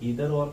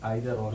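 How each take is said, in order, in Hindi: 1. 'either' के पहले स्वर की ध्वनि "ee" जैसी है। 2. 'either' के पहले स्वर की ध्वनि "eye" जैसी है। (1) "कुछ लोग इसको ईदर और कहते हैं" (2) "कुछ आइदर और कहते हैं"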